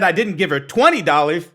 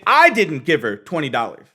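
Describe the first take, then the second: First: The stress is on the word twenty. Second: The stress is on the word I.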